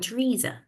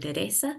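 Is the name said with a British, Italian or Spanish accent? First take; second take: British; Spanish. First: The name is said with a British accent. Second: The name is said with a Spanish accent.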